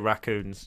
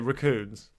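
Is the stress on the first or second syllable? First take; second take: first; second. First: The stress is on the first syllable. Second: The stress is on the second syllable. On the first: "I say raccoons" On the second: "You always emphasise the second syllable"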